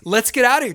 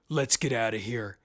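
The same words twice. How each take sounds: First: It is spoken in a higher register. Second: It is spoken in a deep, low register. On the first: The speaker calls it right. "Americans usually talk on a higher register. So like up here" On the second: The speaker calls it wrong. "we've got that deep baritone"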